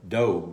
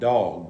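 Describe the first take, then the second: First: It is said as doe followed by a g. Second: It is said like the animal word dog. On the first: The speaker calls it right. "D O E, doe, and G ... that's kind of the way I pronounce it" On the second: The speaker calls it wrong. "I want to just call him dog, but I don't think that's the"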